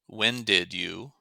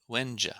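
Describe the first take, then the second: First: Each word is said fully and separately. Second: The words merge with a weak final vowel.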